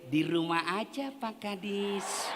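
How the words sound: It is said in a soft, lilting, flirtatious voice.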